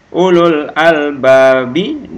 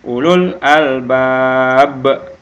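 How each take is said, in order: First: The last word ends with a full vowel ending. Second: The last word ends on a bounced stopped consonant. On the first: The reading continues without stopping. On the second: The reader stops at the end of the verse.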